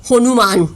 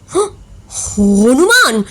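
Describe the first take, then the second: First: Said in the usual way. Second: A gasp, then the word echoed in shock. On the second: A narrator's reading. Manik echoes the insult, mildly shocked. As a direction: gasp and repeat Hanuman in disbelief. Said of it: "মানিক আঁতকে উঠল".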